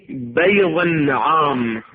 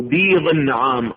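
First: بيض with an open "ay" after the ب, "bayd"; fatha on بيض. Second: بيض with a long "ee" after the ب, "beed"; kasra on بيض. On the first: Teacher shows students the variant vowels, fatha on بيض. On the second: Teacher shows students the variant vowels, kasra on بيض. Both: Shown as a demonstration. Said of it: "بفتح الباء لو بكسر الباء".

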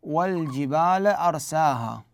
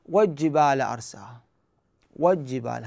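First: والجبال أرساها slowly, with the lam of al- clearly sounded before the jim. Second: والجبال أرساها with the lam dropped, sounded wa-jjibal; common mistake, dropped lam. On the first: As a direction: say wal-jibal slowly, keeping the lam. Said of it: "مثلًا في الآية القرآنية". (والجبال أرساها بإظهار اللام قبل الجيم وببطء) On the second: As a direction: run the jim straight after wa- with no lam. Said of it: "ما يلفظوها". (والجبال أرساها بحذف اللام خطأً) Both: Shown as a demonstration.

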